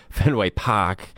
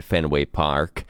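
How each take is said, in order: First: Drawn-out Boston accent, dropping the R in Park; playful slow Boston accent. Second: Said in the usual way. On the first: Shown as a demonstration. Sportscaster jokingly saying the ballpark's name, in a Boston accent. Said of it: "I said it like a Boston person".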